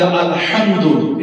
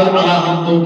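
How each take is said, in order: First: আলহামদু with a strong throaty h; correct pronunciation. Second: আলহামদু said wrongly as "aa-la-hamdo"; mispronounced. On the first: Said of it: "এটা কিন্তু সঠিক আছে". (আলহামদু, শুদ্ধ উচ্চারণে গলার হা দিয়ে) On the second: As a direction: loosen আলহামদু with an extra vowel after the l. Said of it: "তা আলহামদুর শব্দ অর্থ করতে গেলে". (আলহামদু, ভুল উচ্চারণে "আলাহামদো") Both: Shown as a demonstration.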